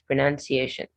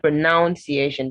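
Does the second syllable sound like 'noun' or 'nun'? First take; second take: nun; noun. First: The second syllable sounds like 'nun'. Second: The second syllable sounds like 'noun'. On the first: The speaker calls it right. "it's pronunciation" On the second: The speaker calls it wrong. "So it's not pronunciation because there is no O before the U"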